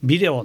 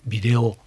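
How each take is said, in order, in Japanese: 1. 最初の拍が高くて、そのあと下がる。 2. 音が上がって、下がらずに平らに続く。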